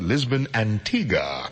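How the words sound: Antigua is said the Caribbean way. This is how people of the Caribbean say it. "we people of the Caribbean, ... we pronounce it"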